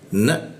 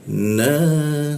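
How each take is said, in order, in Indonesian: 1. Vokal dipotong pendek setelah satu ketukan. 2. Vokal ditahan selama dua ketukan. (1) "maka dibaca satu harokat aja. Na mentok" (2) "seperti itu panjang"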